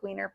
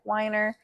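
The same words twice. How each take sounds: First: "wiener" with a long ee, WEE-ner; pronounced as spelt. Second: "Weiner" with a long i, WHY-ner; surname pronunciation. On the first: Guest contrasting spelling of own surname, "wiener" said WEE-ner. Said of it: "spelt like wiener". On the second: Guest showing how surname is said, "Weiner" as WHY-ner. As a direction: say "Weiner" to rhyme with finer. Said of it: "pronounced like Weiner". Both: Shown as a demonstration.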